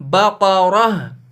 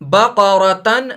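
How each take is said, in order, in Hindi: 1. शब्द का अंत 'h' की आवाज़ से होता है। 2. शब्द का अंत 'tan' की आवाज़ से होता है। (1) "जज्म मानकर इसको पढ़ेंगे बकरह" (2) "इसको बकरतन नहीं"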